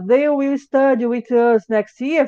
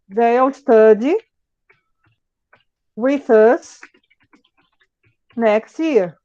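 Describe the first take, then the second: First: Will is said in full as a separate word. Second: Will is contracted onto they, said faster.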